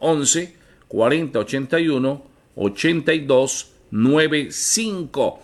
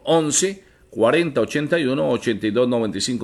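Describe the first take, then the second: First: The number is read slowly. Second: The number is read at normal speed.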